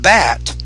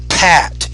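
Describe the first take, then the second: First: The first sound has little or no air. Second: The first sound has a strong puff of air. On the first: The speaker calls it wrong. "It's not bat" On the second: The speaker calls it right. "You have to pronounce the P with more air"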